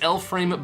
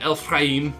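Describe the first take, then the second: First: The name is said in a plain accent. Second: The name is said in an exaggerated Jewish accent.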